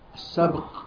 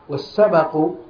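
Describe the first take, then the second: First: The b has no vowel after it. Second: The b is followed by a short a vowel. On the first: It means the act of racing. "بسكان الباء" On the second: It means the prize given to the winner. "بفتح الباء"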